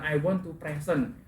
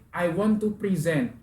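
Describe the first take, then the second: First: "present" dito PRE-sent, acento na primeira sílaba, forma errada; wrong noun stress. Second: "present" dito pre-SENT, acento na segunda sílaba; verb stress. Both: Shown as a demonstration.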